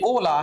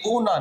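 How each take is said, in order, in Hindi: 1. यह शब्द 'l' ध्वनि से खत्म होता है। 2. यह शब्द 'n' ध्वनि से खत्म होता है। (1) "ये ओला है" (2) "ये ओना नहीं है"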